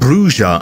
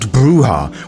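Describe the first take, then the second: First: The middle consonant is a j sound. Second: The middle consonant is an h sound. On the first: The speaker calls it right. "I am saying Bruja" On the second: The speaker calls it wrong. "and not Bruja, which is purely because to call them Bruja is wrong"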